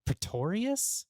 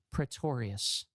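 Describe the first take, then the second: First: Slow high questioning Pretorius?; puzzled repeat. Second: Tired low correction with a sigh; weary sigh. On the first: Acted. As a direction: echo the name back in disbelief. Beth repeats doubtfully. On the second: Real, not acted. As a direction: sigh the name out slowly.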